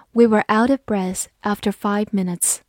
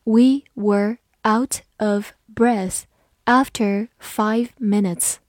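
First: Said in the usual way. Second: Slow, careful reading, each word spaced out; deliberately slowed classroom read. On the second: Shown as a demonstration. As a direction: read it slowly for learners to follow. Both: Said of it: "好，慢读一遍".

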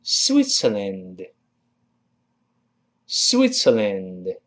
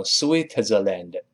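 First: "Switzerland" as swit-ser-land, slow and spaced; careful "Switzerland", ts not z; correct pronunciation. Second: "Switzerland" mistakenly with a separate t and z; "Switzerland" said the incorrect way, z not ts; wrong pronunciation. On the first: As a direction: model "Switzerland" slowly with a ts in the middle. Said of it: "跟老师读一下". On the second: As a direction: break "Switzerland" up as swit-zer-land with a buzzing z. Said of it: "注意不要读成Switzerland". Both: Shown as a demonstration.

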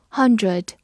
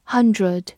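No difference in how they are said.

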